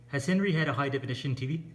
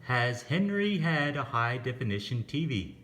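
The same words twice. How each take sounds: First: The sentence is said very fast. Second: The sentence is said at a normal pace.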